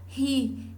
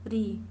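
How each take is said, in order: First: The r is a strong, forceful sound. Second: The r is a light, weak tap. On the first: "Fica um som mais forte" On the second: "quando eu preciso de um som mais fraco, eu uso um único R"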